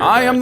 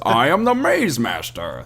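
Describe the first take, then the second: First: It is said in a plain, unconvincing voice. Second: It is said in a put-on imitating voice. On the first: The speaker calls it wrong. "it wasn't even the right uh, tone of voice" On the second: The speaker calls it right. "That's more like it"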